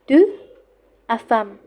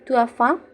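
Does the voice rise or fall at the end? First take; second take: fall; rise. First: It is said as a plain statement, not rising. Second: It rises at the end like a question.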